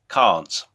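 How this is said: It is said in an English accent. "I'm saying this is in an English accent because I'm English"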